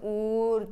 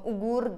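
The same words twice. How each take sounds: First: The g is swallowed and the vowels are lengthened. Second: A hard g sound is pronounced in the middle. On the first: The speaker calls it right. "uğur diyeceksin" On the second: The speaker calls it wrong. "Uğur demeyeceksin"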